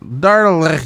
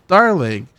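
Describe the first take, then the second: First: Bad French accent. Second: Said in the usual way. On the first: Shown as a demonstration. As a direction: have a clumsy go at a French accent. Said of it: "That is not French accent at all".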